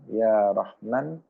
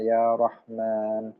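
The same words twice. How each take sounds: First: The long vowels are cut short. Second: The long vowels are held long. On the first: The speaker calls it wrong. "Dibaca pendek" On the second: The speaker calls it right. "yang harusnya panjang"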